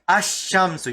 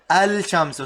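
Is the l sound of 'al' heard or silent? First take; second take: silent; heard. First: The l sound is silent; sh is doubled. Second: The l sound is clearly pronounced before sh. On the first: The speaker calls it right. "the lam sound disappears" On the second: The speaker calls it wrong. "You don't say al shamsu"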